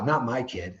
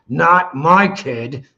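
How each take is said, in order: First: It is said in a casual, dismissive tone. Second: It is said through gritted teeth, firmly. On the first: It could never happen here. The speaker calls it wrong. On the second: I refuse to let it happen. The speaker calls it right. "If you just gritted your teeth when you said that"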